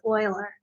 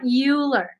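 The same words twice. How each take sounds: First: The name rhymes with spoiler. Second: The name rhymes with ruler. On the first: The speaker calls it right. "it's pronounced Euler" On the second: The speaker calls it wrong. "not ruler. It's not Euler"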